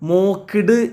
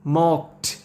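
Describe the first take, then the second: First: The word ends with a d sound. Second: The word ends with a t sound. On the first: The speaker calls it wrong. "മോക്ക്ഡ് എന്ന് പറയരുത്" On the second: The speaker calls it right. "അവസാനം ട് സൗണ്ടാണ് വരുന്നത്"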